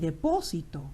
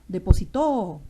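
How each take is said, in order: First: The stress is on the third-to-last syllable. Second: The stress is on the last syllable. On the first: It names a place where things are stored. "depósito es un sustantivo" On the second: It refers to a past action. "Depositó en pasado"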